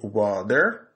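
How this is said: The t in water sounds like a soft d. "pour anglais américain, on dit water"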